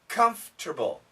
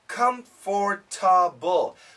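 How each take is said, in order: First: The word is shortened, with a syllable dropped. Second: Every syllable is pronounced as it is spelled. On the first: The speaker calls it right. "We almost always say comfortable" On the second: The speaker calls it wrong. "If you check a dictionary, ... But nobody says that"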